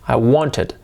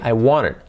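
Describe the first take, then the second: First: It is said slowly, every sound clear. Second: It is said quickly, the sounds run together.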